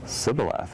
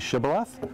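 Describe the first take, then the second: First: The word begins with a plain s sound. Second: The word begins with an sh sound. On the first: The speaker belongs to the out group. The speaker calls it wrong. "they couldn't pronounce the S H" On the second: The speaker belongs to the in group. The speaker calls it right. "Can you say Shibboleth?"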